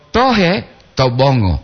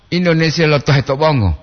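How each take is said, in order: First: Slow it, parting "tohe" from "to bongo"; intonasi dipisah. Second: "tohe to bongo" in one smooth run with no break; intonasi disambung. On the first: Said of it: "menurut tulisan ini saya baca". ("tohe" tinggi, jeda, "to bongo" rendah) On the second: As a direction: link "tohe to bongo" straight through. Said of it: "Beda kan?". ("tohe to bongo" disambung tanpa jeda) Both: Shown as a demonstration.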